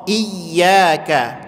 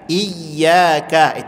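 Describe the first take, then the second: No difference in how they are said.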